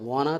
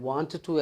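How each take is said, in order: First: The words are run together and reduced. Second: Both words are said fully and separately.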